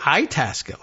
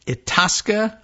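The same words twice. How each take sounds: First: "Itasca" said eye-TASS-kuh, with an eye sound first; pronounced like Italian. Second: "Itasca" said ih-TAHS-kuh, with a broad ah; "Itasca" as ih-TAHS-kuh, stress on the middle; careful ih-TAHS-kuh for "Itasca"; guessed pronunciation. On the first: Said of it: "like Italian". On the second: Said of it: "is the way you would say that". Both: Shown as a demonstration.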